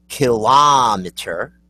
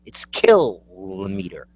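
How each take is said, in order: First: Slow "kilometer" as kih-LOM-eter, rising at the end; questioning "kilometer" with weight on LOM; kilometer stressed on LOM. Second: "kilometer" slowly as KILL-o-meter; slow correcting "kilometer", KILL first; kilometer stressed on KILL. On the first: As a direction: draw out the AH in "kilometer". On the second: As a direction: stretch KILL, then drop for "meter" in "kilometer". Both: Shown as a demonstration. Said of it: "you're wrong".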